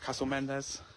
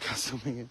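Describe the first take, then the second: First: The name is said with an 'nd' sound. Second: The name is said with an 'ng' sound. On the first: "I probably said that wrong" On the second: "I always just say Mingin"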